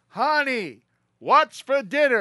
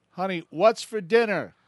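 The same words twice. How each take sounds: First: A much higher, louder, slow call right at the kitchen; loudest call. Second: Called out higher, louder and slow toward the kitchen; husband calling out. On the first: Husband at the kitchen door calls his wife as loud as he can. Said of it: "gets right next to the kitchen and goes". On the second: Old husband calls out to his wife in the kitchen, raised voice. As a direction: raise your voice to call to the kitchen. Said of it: "And he goes". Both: Retold or imitated.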